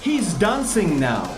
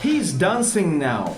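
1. He і is вимовляються разом, як одне слово. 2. He і is вимовляються разом, як одне слово.

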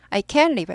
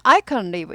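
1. can은 강하게 읽어요. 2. can은 약하게 읽어요. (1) "can이 강조되면 못한다는 뜻이에요" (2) "살 수 있다는 I can live 이렇게 약화돼요"

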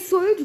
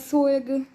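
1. Nazwa jest wymawiana po angielsku. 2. Nazwa jest wymawiana nie po angielsku. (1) "Ja mówię Sludge, bo w sumie no angielski" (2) "A nie Sludge"

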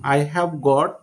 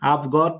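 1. 'I have' দুটি পূর্ণ শব্দ হিসেবে বলা হয়। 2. 'I have' সংকুচিত হয়ে একটি ছোট শব্দাংশে পরিণত হয়। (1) "আই হ্যাভ গট একটু সময় নেয়" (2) "আভ গট বললে একটু সময় কম নেবে"

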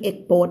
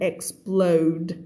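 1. กลุ่มพยัญชนะนี้ไม่ชัด ออกเสียงไม่ครบ 2. กลุ่มพยัญชนะนี้ออกเสียงครบและชัดเจน (1) "ไม่ได้" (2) "ต้องเป็น"

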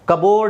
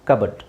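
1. ಎರಡನೇ ಉಚ್ಚಾರಾಂಶ ಪೂರ್ಣ 'bord'. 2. ಎರಡನೇ ಉಚ್ಚಾರಾಂಶ ಚಿಕ್ಕ 'bud'. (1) "ಕಬೋರ್ಡ್ ಅಲ್ಲ" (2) "ಪಿ ತೆಗೆದಾಕ್ಬಿಡಬೇಕು"

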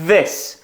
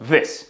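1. Звук th дзвінкий і протягується довго. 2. Звук th короткий і не протягується. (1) "спробуйте прожужжати і потім сказати повне слово" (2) "Ми не скажемо просто this"

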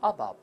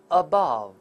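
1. 重音在第一个音节。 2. 重音在第二个音节。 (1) "那么前面就变成倒V 字的，后面就变成倒E 字的了" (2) "这个词前面是轻读，后面这个字母o 是重读"

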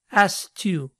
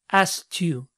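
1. El sonido K en asked se omite. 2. El sonido K en asked se omite.

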